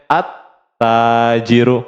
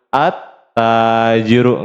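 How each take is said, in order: First: The l merges into a doubled t sound. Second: The same.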